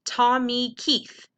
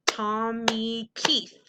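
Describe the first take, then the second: First: Said in the usual way. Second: Tommy Keith slowly in three beats, Tom, mee, Keith; drawn-out TOM-MEE-KEITH; syllable by syllable. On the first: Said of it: "So for example". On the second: Shown as a demonstration. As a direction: stretch each syllable of Tommy Keith evenly. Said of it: "has three syllables".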